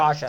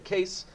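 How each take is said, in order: First: The name ends in an open vowel sound. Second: The name ends in an s sound. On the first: The speaker calls it right. "It's Kasha" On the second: The speaker calls it wrong. "so I hope I pronounced it correctly"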